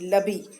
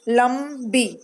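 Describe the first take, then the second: First: The word has no nasal sound before b. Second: The word has an m sound before b. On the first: The speaker calls it wrong. "लबी कुछ होता है? नहीं होता है" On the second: The speaker calls it right. "म का ध्वनि आ रहा है"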